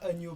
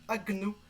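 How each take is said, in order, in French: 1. Le g et le n se fondent en un seul son 'ny'. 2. Le g et le n se prononcent comme deux sons séparés. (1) "on ne pourrait pas prononcer ça agneau" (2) "ça se dit agno"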